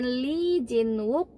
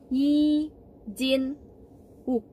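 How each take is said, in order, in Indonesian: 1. Nama ini diawali dengan bunyi L. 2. Nama ini diawali dengan bunyi Y. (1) "Dibacanya bukan Lee Jin-wook" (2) "tapinya Yi Jin-wook"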